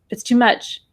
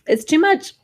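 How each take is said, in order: First: Tight, alarmed words straight after a gasp, breath held; mock panic, too much punched; mild alarmed gasp. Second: Higher and breathy, words on the exhale; weary sighing release on much; sighed out. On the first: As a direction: say it as if frightened by the amount, holding the breath. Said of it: "I don't want anybody going". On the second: Retold or imitated. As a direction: sigh it out and let the breath carry the words. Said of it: "we don't exhale and go".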